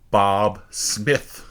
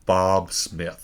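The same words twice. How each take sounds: First: It is said in an irritated voice. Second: It is said in a calm, neutral voice.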